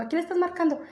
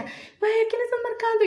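First: Higher, softer mock indignation; retold annoyed policeman. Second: Nervous friend. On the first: Cop questions her phone call, mildly annoyed. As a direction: lightly imitate a cop demanding an answer. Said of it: "se enojó porque empecé a marcar". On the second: Retold or imitated. Friend asks who she is calling, mock nervous. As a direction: imitate a panicky friend questioning a risky call. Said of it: "mi amiga también se puso súper nerviosa".

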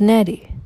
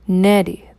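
First: Said in the usual way. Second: Put-on "Neri" softened with a gentle Hausa accent. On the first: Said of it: "her Hausa accent sheaths the Igbo name". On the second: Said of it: "her Hausa accent sheaths the Igbo name in a feathery gentleness".

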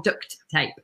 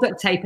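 First: "duct tape" with the T of duct held before "tape"; product-name pronunciation. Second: "duct tape" said as duck, the T merged into "tape"; brand-name pronunciation. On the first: Guest naming the thing itself, "duct tape" with both Ts sounded. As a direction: separate "duct" from "tape" with a distinct T. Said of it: "the thing's called duct tape". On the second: Guest telling the brand from the thing, "duct tape" said as duck tape. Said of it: "the brand's called duct tape". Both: Shown as a demonstration.

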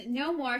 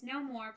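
First: Trembling voice. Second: Said in the usual way. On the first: A narrator's reading. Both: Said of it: "she said in a trembling voice".

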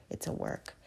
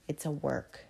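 First: A soft whispered repeat of "It's a work."; whispered echo. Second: A quiet reflective "It's a work."; soft aside. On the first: Echoed in a whisper. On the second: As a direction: drop the voice and let it sink in. Repeated quietly for herself. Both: Real, not acted.

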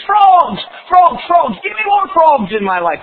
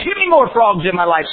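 First: High, loud, greedy demand; loud craving. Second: Said in the usual way. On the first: Acted. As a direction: shout for more. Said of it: "The backslidden Christian says". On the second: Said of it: "says the lost person".

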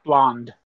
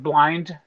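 First: Blonde said with a short vowel; blonde contrasted. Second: Blind said with a long vowel like blind; British blind. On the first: Translating for non-Brits, contrasting blonde. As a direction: set blonde against blind. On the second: Translating for non-Brits, careful blind. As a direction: say blind so it isn't heard as blonde. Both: Shown as a demonstration. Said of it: "I have to translate".

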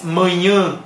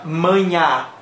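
First: Mañana as two syllables, nasal final vowel; manhã with tilde. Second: Mañana as two syllables, open oral ending; manha without tilde. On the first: Teacher contrasting with tilde, nasal ending. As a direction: end mañana in the nose, as manhã. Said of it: "si tiene la, la culebrita". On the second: Teacher contrasting without tilde, oral ending. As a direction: end mañana on a clear A, as manha. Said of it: "Si no tiene la culebrita". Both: Shown as a demonstration.

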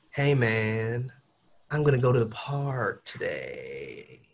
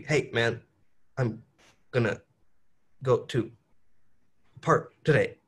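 First: Legato, smooth. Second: Choppy, words split by pauses; staccato. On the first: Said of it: "it's like legato". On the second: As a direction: chop each word apart. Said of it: "But staccato would be". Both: Shown as a demonstration.

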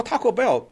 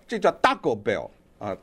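First: Said in the usual way. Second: "Taco Bell" with Spanish vowels, "Ta-co" crisp and unaspirated; mocking correction of "Taco Bell" in Spanish sounds; Spanish pronunciation. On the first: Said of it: "但是你要是西班牙语". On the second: Shown as a demonstration. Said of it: "它是这么一个发音".

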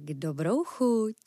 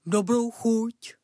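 First: Said in the usual way. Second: Slow, through a mouthful of meat; mouth full. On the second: Acted. Dog answers the cat while gobbling meat, mouth full. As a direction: chew the words, mouth stuffed. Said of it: "plnou pusou odpověděl pes".

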